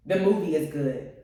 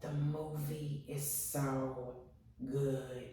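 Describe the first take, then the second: First: Said in the usual way. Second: Slow, soft, drawn-out awe; dreamy, hushed praise; hushed gush. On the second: Real, not acted. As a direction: breathe it out like it moved you. Gushing about the movie.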